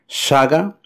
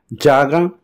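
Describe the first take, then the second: First: The first sound is an 'sh' sound. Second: The first sound is a 'j' sound. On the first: "es como lo hacen los uruguayos y argentinos, que equivale a un C H do portugués" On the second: "como si fuese un D J del portugués"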